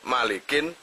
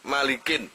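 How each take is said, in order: The two takes are said the same way.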